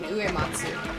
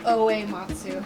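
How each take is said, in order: First: The name begins with an 'oo' sound. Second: The name begins with an 'oh' sound. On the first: The speaker calls it right. "You mean Uematsu" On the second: The speaker calls it wrong. "You said Oematsu"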